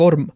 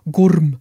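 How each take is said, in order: First: Said in the usual way. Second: "Gorm" with a closed oo vowel, like "Goorm"; Danish-style name. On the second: Shown as a demonstration. Offshore worker repeating the Danish field's name, "Gorm" said as "Goorm". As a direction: say "Gorm" louder, vowel narrowed towards oo.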